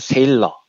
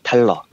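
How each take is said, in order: First: The name begins with an S sound. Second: The name begins with a T sound. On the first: "하나는 리차드 세일러" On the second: "하나는 리차드 탈러"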